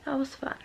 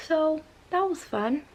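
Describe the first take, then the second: First: Softer, flat repeat under the breath; deflated echo. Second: Higher, mocking sarcasm; sarcastic. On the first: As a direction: let the joke die quietly. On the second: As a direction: say it as dry irony, pitched up. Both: Real, not acted. Sarcastic wrap-up of bad story.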